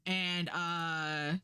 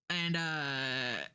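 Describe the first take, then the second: No difference in how they are said.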